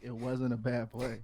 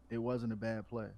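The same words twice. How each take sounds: First: It is said with a defiant attitude. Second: It is said in a plain, neutral way.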